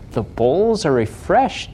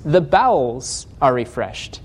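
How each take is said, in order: First: "bowls" said like a cup and a bowl, one syllable; misread word. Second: "bowels" said fully as bow-els, two syllables; slow, with "bowels" as the intestines; corrected word. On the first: Preacher showing his old misreading of "bowls". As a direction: read "bowls" as the dish, puzzled. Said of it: "I would read bowls". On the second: Preacher giving the right reading of "bowels". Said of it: "he's talking about the intestines". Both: Shown as a demonstration.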